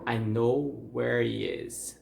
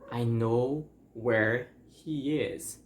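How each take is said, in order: First: The H sound in 'he' is dropped. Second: The H sound in 'he' is pronounced. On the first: "we are going to eliminate the H there" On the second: "it's the phrase"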